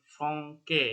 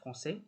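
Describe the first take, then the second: First: The c is pronounced as a k sound. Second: The c is pronounced as an s sound. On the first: The speaker calls it wrong. "kalau nggak ada jangkarnya ini ya, nggak ada lasedilnya ini, bacanya jadi Franke" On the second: The speaker calls it right. "Gunanya jangkar kecil di bawahnya c itu buat biar bacanya bisa jadi s"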